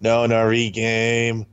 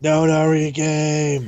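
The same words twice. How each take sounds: First: Slow, drawn out. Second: Slow, drawn-out menacing voice; ominous villain voice. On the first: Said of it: "repeating name slowly". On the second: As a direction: say it like a sinister captain. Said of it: "repeating name in put-on voice". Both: Shown as a demonstration.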